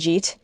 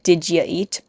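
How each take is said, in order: First: The words are squeezed into one short syllable. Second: The words are said as several separate syllables. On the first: "I understand jeet" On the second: "or more like did ya eat"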